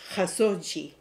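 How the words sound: The name is pronounced the Turkish way. "You will hear the reporter in Istanbul pronounce it as"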